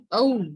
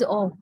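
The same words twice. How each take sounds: First: "O" as a glide from schwa to oo; British diphthong. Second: "O" as one long pure vowel, like the interjection oh; plain interjection oh. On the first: Teacher correcting the student's interjection, "O" as gliding diphthong. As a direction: start "O" on uh and slide into oo. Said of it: "This pronunciation is O". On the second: Teacher showing the student's different word, "O" as pure vowel. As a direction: hold "O" as a single vowel without gliding. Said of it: "then, uh, it's different, right?". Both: Shown as a demonstration.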